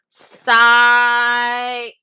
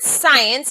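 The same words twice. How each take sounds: First: It is said slowly, stretched out. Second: It is said at normal speed.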